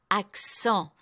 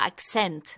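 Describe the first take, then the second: First: The final vowel is nasal. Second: The final vowel is oral. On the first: The speaker calls it right. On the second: The speaker calls it wrong.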